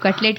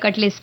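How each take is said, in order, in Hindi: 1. इस शब्द का अंत t की आवाज़ से होता है। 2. इस शब्द का अंत s की आवाज़ से होता है। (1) "कटलेट की जगह" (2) "कटलेस बोलते हैं"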